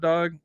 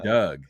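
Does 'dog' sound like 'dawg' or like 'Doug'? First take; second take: dawg; Doug. First: The vowel is the open 'aw' sound. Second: The vowel is the short 'uh' sound. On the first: "I don't say dog when I say what's up" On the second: "I say Doug... that's just my L A talk"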